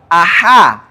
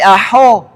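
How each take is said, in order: First: The ha sound is clear and distinct. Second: The ha sound is muffled and unclear. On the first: The speaker calls it right. "ha-nya harus jelas" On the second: The speaker calls it wrong. "Jangan sampai aho"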